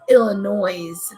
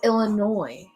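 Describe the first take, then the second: First: It ends with an audible S sound. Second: It ends without an S sound. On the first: This is how people elsewhere say it. The speaker calls it wrong. "They say the S" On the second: This is how locals say it. The speaker calls it right. "There's no S in there. You don't pronounce it"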